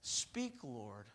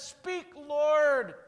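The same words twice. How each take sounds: First: Hushed, low and soft; a soft murmur, barely voiced; quiet instruction. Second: High and loud declaration; bold answer. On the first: Eli teaching Samuel what to say, hushed. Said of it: "you say". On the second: Retold or imitated. Samuel finally answering God, bold and loud. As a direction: answer out loud, ready and eager. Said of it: "this time Samuel says".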